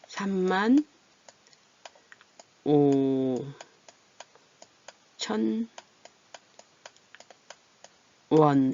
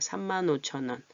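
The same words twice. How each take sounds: First: The words are read apart, without linking. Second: The n carries over into the next word. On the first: "원래는" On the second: "연음이 되죠"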